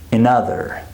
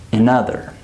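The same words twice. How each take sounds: Both takes have the same delivery.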